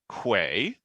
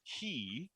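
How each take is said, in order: First: The word is said like 'kway'. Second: The word is said like 'kee'. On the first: The speaker calls it wrong. "I originally thought it was pronounced Quay" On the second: The speaker calls it right. "it's actually pronounced key"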